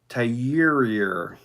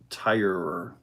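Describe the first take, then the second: First: The name is said like 'tyur'. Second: The name is said like 'tire'. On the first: The speaker calls it wrong. "I messed that up" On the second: The speaker calls it right. "Pronounce tire like tires on a car"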